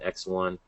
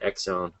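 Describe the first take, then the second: First: The name is said as 'X' then 'one'. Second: The name is run together like 'Exxon'. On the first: The speaker calls it right. "I guess that's how you pronounce it" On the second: The speaker calls it wrong. "It's not Exxon"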